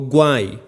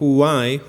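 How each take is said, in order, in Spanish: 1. Empieza con un sonido duro, parecido a g. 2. Empieza con un sonido suave y aspirado, parecido a h. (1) "No es con G, ... no digo why" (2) "W H como una J suave"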